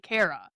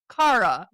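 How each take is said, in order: First: It is said with an American accent. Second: It is said with a British accent. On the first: "we would say Cara" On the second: "It's like in the U K, like they say Cara"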